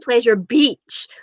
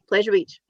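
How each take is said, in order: First: The word beach is strongly over-emphasized. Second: The word beach is said plainly, without emphasis. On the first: It sounds suggestive. The speaker calls it wrong. "You over enunciate the beach part" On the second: It sounds innocent. The speaker calls it right. "Whereas we're all just like"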